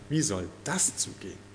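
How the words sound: The question sounds doubting and disbelieving. The asker doubts that it can happen. The speaker calls it wrong. "Und das ist Unglaube"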